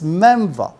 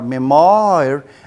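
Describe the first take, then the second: First: The word ends with a short 'va' sound. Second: The word ends close to its spelling, like 'wahr'. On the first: The speaker calls it right. "this is memva, M E M V A" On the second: The speaker calls it wrong. "everyone will be pronouncing it like memoir"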